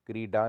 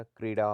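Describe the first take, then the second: First: क्रीडा with a stopped retroflex d; hard d. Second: Said in the usual way. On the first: Shown as a demonstration. Teacher shows the error, क्रीडा with hard ड. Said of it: "नहीं होता". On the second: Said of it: "होता है".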